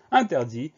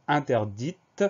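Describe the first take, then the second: First: Interdit ending on an ee sound, T silent; silent final T. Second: Interdite with the final t clearly released; sounded final T. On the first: Teacher dictating to pupils, interdit with its T silent. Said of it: "ce T muet à la fin de interdit". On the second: Teacher showing pupils the hidden letter, interdite with sounded T. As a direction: make the T at the end of interdite audible. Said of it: "Un T qu'on retrouvera dans interdite". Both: Shown as a demonstration.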